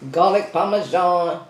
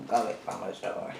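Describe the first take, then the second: First: Said in the usual way. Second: Low murmured repeat. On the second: Shown as a demonstration. To viewers, repeating the flavor low and soft. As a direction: lower and much softer, savoring it.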